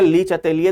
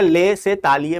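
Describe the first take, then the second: First: The name begins with a 'lee' sound. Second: The name begins with a 'leh' sound. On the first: The speaker calls it wrong. "वो गलत है" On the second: The speaker calls it right. "वो क्या होता है, ले से तालिए"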